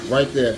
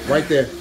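The two takes are said the same way.

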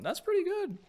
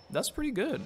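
First: That's pretty good in a much higher silly squeak. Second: Less high repeat. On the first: Streamer squeaking approval of a new artifact. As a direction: squeak it out playfully. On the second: Streamer repeating her approval, toned down. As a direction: echo it a little less squeaky. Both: Acted.

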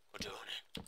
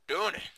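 First: Creepy whispered echo; creeper voice. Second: High, loud burst of creeper voice. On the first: Gamer goofing for viewers on how episodes will go, whispered creeper voice. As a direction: drop into a soft, playful creeper whisper. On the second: Gamer goofing for viewers on how episodes will go, high loud creeper voice. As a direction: pitch it up and punch it out playfully. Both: Pretend. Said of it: "went in that creeper voice".

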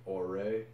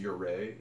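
First: Ouray read as it is spelled, "oh-RAY"; spelling pronunciation. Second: Ouray said the way it is pronounced, "yoo-RAY"; correct pronunciation. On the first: Runner showing viewers how the race name looks written, spelling pronunciation of Ouray. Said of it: "It's spelled like Ouray". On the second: Runner telling viewers how the Colorado race is said, correct pronunciation of Ouray. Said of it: "It's pronounced Ouray". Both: Shown as a demonstration.

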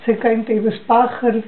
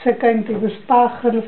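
No difference in how they are said.

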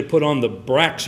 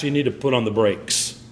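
First: "brax" said like brakes with a short a, "braks"; playful mnemonic "brax"; saying brax. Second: Said in the usual way. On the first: Shown as a demonstration. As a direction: rhyme "brax" with slacks, a memory trick on the Greek word. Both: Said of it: "how I always remember this is brachus".

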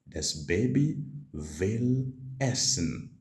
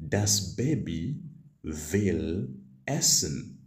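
First: Said in the usual way. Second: Slow, word-by-word German; slow model sentence. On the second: Shown as a demonstration. Teacher slowly modelling the German sentence for students. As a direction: lay each word out slowly. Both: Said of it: "You simply say".

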